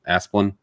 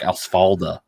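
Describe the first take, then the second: First: The name ends with a short '-lin' sound. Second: The name ends with a '-da' sound. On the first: The speaker calls it right. "I did not know that it was pronounced that way for the longest time" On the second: The speaker calls it wrong. "I thought it was like"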